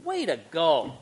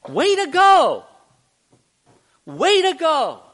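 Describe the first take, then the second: First: Deadpan, unimpressed put-down; sarcastic disappointment. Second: High, loud, drawn-out cheer; big high-pitched shout of praise; praising cheer. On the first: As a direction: say praise as a sarcastic dig. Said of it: "you can say something in one tone or another". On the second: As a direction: cheer them on proudly. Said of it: "one thing we don't have is the tone of voice". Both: Shown as a demonstration.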